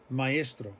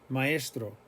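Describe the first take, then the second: The two takes are said the same way.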